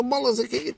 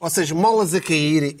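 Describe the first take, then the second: First: Pitched way up, playful; high mock voice. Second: Said in the usual way. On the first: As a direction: squeak it out high and teasing. Repeats phrase in high voice.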